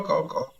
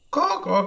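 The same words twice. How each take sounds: First: Caws dropped lower and much softer. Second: Bird caws, pitched up; high caws. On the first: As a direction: let the caws die away low. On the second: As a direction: caw like a crow, high and bright. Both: Acted. Birdman caws.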